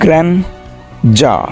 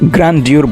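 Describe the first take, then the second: First: The word ends in a plain -der sound. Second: The word ends in a -dyoor sound. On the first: The speaker calls it right. "সঠিক উচ্চারণটি হচ্ছে গ্র্যান্ডার" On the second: The speaker calls it wrong. "গ্র্যান্ডিউর বলবে না"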